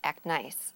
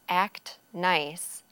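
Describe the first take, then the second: First: The T sound at the end of act is dropped. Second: The T sound at the end of act is pronounced.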